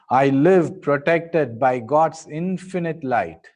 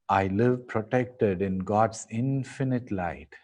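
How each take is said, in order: First: It is said in a louder voice. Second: It is said in a softer voice.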